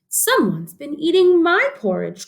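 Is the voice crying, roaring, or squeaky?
crying. It is said in a crying, upset voice.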